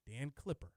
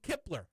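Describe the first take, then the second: First: The name begins with a cl sound. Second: The name begins with a k sound. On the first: The speaker calls it right. "the correct way" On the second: The speaker calls it wrong. "I was saying Kipler"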